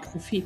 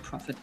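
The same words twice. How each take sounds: First: The name is said with German pronunciation. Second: The name is said with English-like pronunciation. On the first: The speaker calls it right. "Prophet, nicht Prophet" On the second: The speaker calls it wrong. "nicht Prophet. Mensch, ich bin schon so angliziert"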